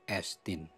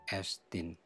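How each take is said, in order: Both takes have the same delivery.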